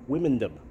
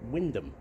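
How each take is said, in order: First: The middle 'ond' letters are pronounced aloud. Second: The middle 'ond' letters are left silent. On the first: The speaker calls it wrong. "to me, untrained eye, I would pronounce that Wymondham" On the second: The speaker calls it right. "that O N D is silent, so it's"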